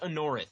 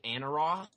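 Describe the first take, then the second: First: The name ends with a 'rith' sound. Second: The name ends with a 'roth' sound. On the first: The speaker calls it right. "it's pronounced Anorith" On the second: The speaker calls it wrong. "Corey has always pronounced it Anaroth"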